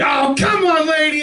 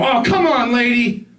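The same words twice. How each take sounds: First: Dad road rage yell. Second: Dad road rage. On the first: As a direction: bellow at the car ahead like an angry dad. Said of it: "Somebody slams on their brake". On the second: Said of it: "he would do this thing where he would". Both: Retold or imitated.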